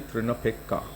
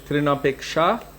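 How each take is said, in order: First: The word ends with a k sound. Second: The word ends with a sh sound. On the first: "Bengali pronunciation would be" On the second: "technically, it is"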